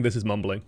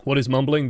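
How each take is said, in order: First: Low mumbled demo; under-projected mumble; mumbling. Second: Said in the usual way. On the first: Shown as a demonstration. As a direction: mumble it, letting the pitch drop. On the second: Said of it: "don't mumble".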